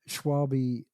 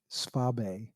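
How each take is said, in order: First: The name is pronounced the anglicized way. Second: The name is pronounced the German way. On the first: The speaker calls it wrong. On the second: The speaker calls it right.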